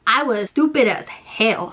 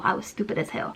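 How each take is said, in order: First: Said in the usual way. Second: Whispered, lower and much softer; whispered aside. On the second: Shown as a demonstration. Whispering a self-scolding aside to the viewers. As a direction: whisper it to yourself like a confession. Repeats line, second whispered.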